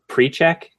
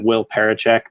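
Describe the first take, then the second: First: The name is shortened to sound like pre-check. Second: The name is read out with all its syllables. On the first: This is how the team pronounces it. "but they pronounce it Prechek" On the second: This is how the written name looks. "They list him as an offensive lineman"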